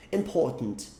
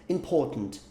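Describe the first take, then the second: No difference in how they are said.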